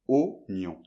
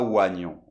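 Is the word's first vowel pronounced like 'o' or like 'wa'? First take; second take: o; wa. First: The first vowel sounds like 'o'. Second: The first vowel sounds like 'wa'. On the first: The speaker calls it right. "On doit faire oignon. c'est comme si le I n'existait pas" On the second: The speaker calls it wrong. "On fait pas oignon"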